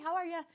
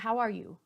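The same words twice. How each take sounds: First: It sounds quick, casual and offhand. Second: It sounds slow, warm and sincere. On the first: The asker does not really want an answer. The speaker calls it wrong. "Not like that" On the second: The asker truly wants to know how you are. The speaker calls it right. "Like a real, how are you question"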